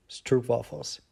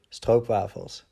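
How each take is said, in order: First: Stroopwafels said as English STROOP-wah-fels, quick rising; anglicized stroopwafels. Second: Stroopwafels said slowly, Dutch STROHP-vah-fels, falling. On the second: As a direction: stroopwafels drawn out with Dutch vowels. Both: Shown as a demonstration. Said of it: "or stroopwafels".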